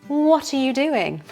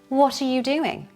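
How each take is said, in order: First: All words are kept but run smoothly together. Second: The same.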